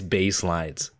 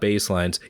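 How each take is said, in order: First: It is said with strong, drawn-out emphasis. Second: It is said plainly, without special emphasis.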